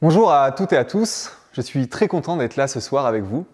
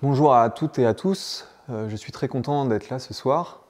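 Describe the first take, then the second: First: It sounds sincere and convincing. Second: It sounds hesitant and unconvincing.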